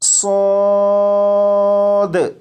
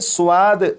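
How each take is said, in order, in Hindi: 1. स्वर सादा लंबा 'a' है। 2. स्वर की शुरुआत w जैसी ग्लाइड से होती है। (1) "बल्कि अलिफ की आवाज के साथ" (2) "स्वाद नहीं पढ़ेंगे, यानी वाओ की आवाज के साथ नहीं"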